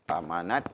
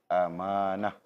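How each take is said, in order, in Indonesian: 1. Kata ini diakhiri dengan bunyi t. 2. Kata ini diakhiri dengan bunyi h. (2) "bila dibaca dengan amanah, ... Ta marbutah ini di apa? Di digugurkan"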